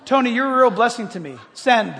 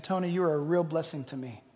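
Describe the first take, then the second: First: Voice-command dictation. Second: Said in the usual way. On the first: Shown as a demonstration. Texting Tony by voice command, dictation voice. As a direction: dictate it firmly to the phone. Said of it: "Verbally, and I sent it". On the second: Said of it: "and I said".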